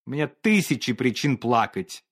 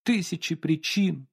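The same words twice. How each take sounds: First: Cool, even reproach; cold dismissive. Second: Mild sobbing echo. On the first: Painter coldly tells Olga he too has reasons to cry. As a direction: brush off her tears coldly. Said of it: "не доставало только слёз". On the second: Olga repeats the painter's тысячи причин with a light sob. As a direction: echo his тысячи причин through tears. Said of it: "всхлипнула Ольга Ивановна". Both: Acted.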